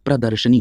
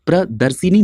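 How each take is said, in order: First: प्रदर्शनी with a short a, pra-dar-sha-ni; correct vowel. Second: प्रदर्शिनी with an i after the sh sound, pra-dar-shi-ni; wrong vowel. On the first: Teacher giving students the right word, प्रदर्शनी said with "sha". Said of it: "प्रदर्शनी होता है". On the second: Teacher showing students the wrong spelling, प्रदर्शिनी said with "shi". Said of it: "प्रदर्शिनी नहीं होता है". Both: Shown as a demonstration.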